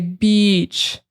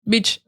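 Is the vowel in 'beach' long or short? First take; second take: long; short. First: The vowel is held long. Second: The vowel is cut short. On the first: The speaker calls it right. "You want to make it long. So you want to say beach" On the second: The speaker calls it wrong. "You don't want to say beach, like you don't want to cut that short"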